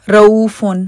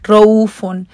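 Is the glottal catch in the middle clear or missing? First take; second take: missing; missing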